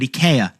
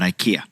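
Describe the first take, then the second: First: It is pronounced the native Swedish way. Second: It is pronounced the usual American way. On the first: The speaker calls it right. "That's how they say it in the native tongue" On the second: The speaker calls it wrong. "not IKEA"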